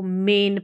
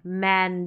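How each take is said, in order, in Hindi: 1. 'man' का स्वर 'men' के e जैसा सुनाई देता है। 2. 'man' का स्वर खुले 'ae' की आवाज़ जैसा सुनाई देता है। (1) "अगर ऐसे ही ए बोल दूँ तो मैं आप इसको मेन पढ़ देंगे ... जो कि गलत रहेगा" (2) "ए उच्चारण मैन"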